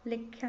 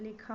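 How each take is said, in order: First: लिख्या with an added y glide; wrong pronunciation. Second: लिखा without the y glide; correct pronunciation. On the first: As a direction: say लिख्या as likh-ya. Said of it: "नहीं होता है". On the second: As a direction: end लिखा straight on khaa. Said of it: "होता है". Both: Shown as a demonstration.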